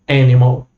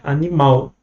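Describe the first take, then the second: First: The stress falls near the start of the word. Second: The stress falls near the end of the word. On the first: This is the English way of saying it. "No inglês, não" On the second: This is the Portuguese way of saying it. "a gente pronuncia o ao mais forte"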